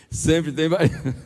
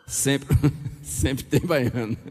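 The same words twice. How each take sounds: First: "Sempre" punched, falling tune; slow, firm "Sempre tem baiano"; stress on sempre. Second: Laughing through "sempre tem baiano"; amused, slow "sempre tem baiano". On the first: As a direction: repeat it with weight on "Sempre". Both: Real, not acted.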